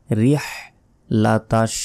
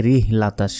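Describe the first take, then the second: First: রিহলাতাশ slow, with breathy throat h after ri; careful "riHH-latash" for রিহলাতাশ; correct pronunciation. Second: Weak h in রিহলাতাশ, no break; casual, quick "rihlatash" for রিহলাতাশ; wrong pronunciation. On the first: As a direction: let the h of রিহলাতাশ ring out before "latash". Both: Shown as a demonstration. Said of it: "রিহ নয়".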